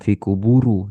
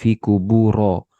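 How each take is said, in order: First: The word ends with a u vowel. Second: The word ends with an a vowel.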